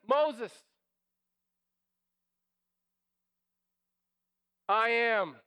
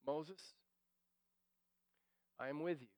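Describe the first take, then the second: First: A strong, louder divine answer; booming proclamation. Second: A soft, intimate divine answer; hushed reassurance. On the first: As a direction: declare it loud and firm, as God. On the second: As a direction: drop it much softer and lower. God's answer softly. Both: Pretend.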